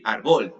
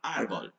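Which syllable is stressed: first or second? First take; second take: second; first. First: The stress is on the second syllable. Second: The stress is on the first syllable. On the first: "if it had the accent in the second syllable, it would be árbol" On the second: "the accent goes in ah"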